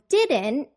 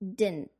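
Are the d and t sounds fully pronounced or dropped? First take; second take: pronounced; dropped. First: The d and t sounds are fully pronounced. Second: The d and t sounds are dropped.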